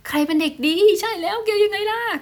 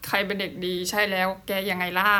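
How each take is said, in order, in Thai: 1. พูดด้วยเสียงสูงค่ะ 2. พูดด้วยเสียงปกติค่ะ (1) "น้องหมาชอบให้เราคุยในโทนเสียงแบบว่าสูงแบบนี้" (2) "มากกว่าที่จะแบบคุยแบบปกติ"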